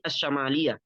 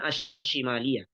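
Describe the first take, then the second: First: The vowel after the sh sound is a. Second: The vowel after the sh sound is i. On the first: It means northern. The speaker calls it right. "maka yang benar adalah Korea" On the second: It points to the word for left. The speaker calls it wrong.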